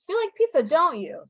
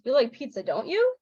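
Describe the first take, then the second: First: DON'T YOU falls, sure the answer is yes; confident tag, "don't you" dropping at the end; high on "you like pizza", "don't you" going down; falling tag question. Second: Tentative tag, "don't you" lifting at the end; level "you like pizza", then "don't you" swooping up; rising tag question. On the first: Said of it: "If you think the answer is probably yes". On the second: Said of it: "If you think it might be yes". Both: Shown as a demonstration.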